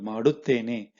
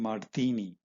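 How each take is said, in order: First: The verb is said in full with all syllables. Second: The verb is said shortened with syllables dropped. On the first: This is the formal written style. "is your written form" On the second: This is the everyday spoken style. "the spoken form will be"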